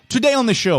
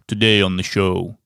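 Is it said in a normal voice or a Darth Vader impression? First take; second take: normal voice; Darth Vader. First: It is said in his normal voice. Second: It is said in a Darth Vader impression.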